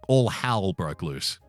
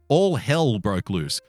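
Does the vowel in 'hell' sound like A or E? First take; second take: A; E. First: The vowel in 'hell' sounds closer to A. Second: The vowel in 'hell' is a clear E sound. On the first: "People from Melbourne say their E's like A's" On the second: "I'm from Sydney, so when I say hell, I say it with an E"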